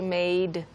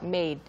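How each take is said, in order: First: The final d is clearly released with air. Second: The final d is cut short with no air. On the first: "if you say it slowly, you know, you say made. There's like a d kind of made" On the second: "when you put it in the sentence that way, the de becomes like very short"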